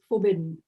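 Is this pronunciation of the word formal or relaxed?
relaxed. The word is pronounced in a relaxed, casual accent. "it was very like relaxed in the second one"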